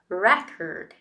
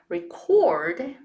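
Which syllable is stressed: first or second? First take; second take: first; second. First: The stress is on the first syllable. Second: The stress is on the second syllable. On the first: It is the noun. "The noun form is record. Re is the strong one" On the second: It is the verb. "switch the stressed syllable to record, it becomes the verb"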